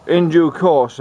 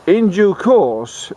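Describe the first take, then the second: First: Said in the usual way. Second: In due course, drawn out slow and high; in due course said slowly and loftily; slow emphatic phrase. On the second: Shown as a demonstration. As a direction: stretch out in due course grandly.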